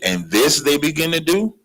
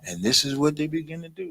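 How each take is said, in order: First: It is said in an angry tone. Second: It is said in a calm tone.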